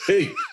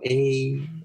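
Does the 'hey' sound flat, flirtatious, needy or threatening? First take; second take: threatening; flat. First: It sounds warning and threatening. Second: It sounds flat, with no meaning.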